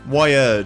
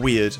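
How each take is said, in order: First: The word rhymes with 'fired'. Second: The word rhymes with 'beard'. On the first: The speaker calls it wrong. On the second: The speaker calls it right. "I guess is the proper way of pronouncing it"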